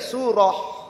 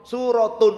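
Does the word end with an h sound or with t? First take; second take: h sound; t. First: The word ends softly with an h sound. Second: The word ends with a t and -un. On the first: The reader stops after the word. "kalau dibacanya berhenti ya surah" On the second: The reader continues into the next word. "Kalau dibacanya disambung surat"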